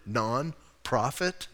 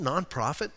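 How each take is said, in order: First: NONPROFIT broken slowly into non, pause, profit; pointed word split. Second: Said in the usual way. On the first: Shown as a demonstration. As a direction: stretch NONPROFIT as two separate words, NON ... PROFIT.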